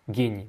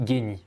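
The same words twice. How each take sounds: The two takes are said the same way.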